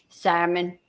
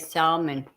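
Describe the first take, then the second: First: The word is said with a silent L. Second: The word is said with the L pronounced.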